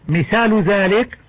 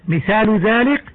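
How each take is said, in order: The two takes are said the same way.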